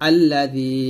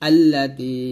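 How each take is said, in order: Both takes have the same delivery.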